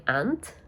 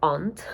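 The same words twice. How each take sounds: First: "aunt" said like "ant", flat a; "aunt" with the short a of "cat"; American aunt. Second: "Aunt" with a long broad ah, like "ahnt"; "Aunt" rhyming with "can't" in British speech. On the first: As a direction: say "aunt" rhyming with "pant". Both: Shown as a demonstration. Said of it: "if you're British".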